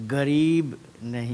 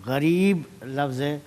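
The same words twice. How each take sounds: First: غریب said with a hard g, garib; غریب with a plain hard g at the start, the proper way; correct pronunciation. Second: غریب said with a throaty gh, ɣarib; wrong pronunciation. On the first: Judge demonstrating غریب said correctly with a hard g. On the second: Judge demonstrating غریب said wrongly with a gh sound. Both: Shown as a demonstration.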